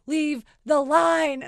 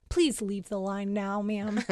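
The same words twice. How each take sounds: First: Loud, slow, each word separate; imitating an insistent drive-thru worker; firm order. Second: Lower, restrained mock-official request; lightly voiced drive-thru worker; mild stern worker. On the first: Quoted worker repeats the order firmly. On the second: Quoted worker asking her to leave.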